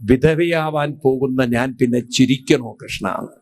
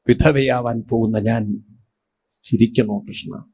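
First: A touch of sobbing in the question, barely voiced; retelling Draupadi bursting into tears, understated; mild tearful outburst. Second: Lower, fading into a choked sob; grieving wife-to-be widow, low and tearful; tearful, broken voice. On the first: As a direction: Draupadi to Krishna, a hint of weeping. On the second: Acted. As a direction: Draupadi crying out to Krishna, voice sinking. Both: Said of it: "പൊട്ടിക്കരഞ്ഞിട്ട് പറഞ്ഞു".

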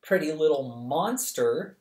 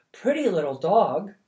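First: A hint of sour sarcasm, near the narrator's own voice; dry retort. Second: Lightly voiced woman, higher and louder, doting; market woman cooing. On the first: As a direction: turn the compliment sour. Charmaine's sour retort to the woman. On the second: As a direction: coo over the little dog. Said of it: "remarked a woman".

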